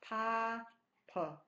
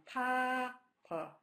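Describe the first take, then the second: Both takes have the same delivery.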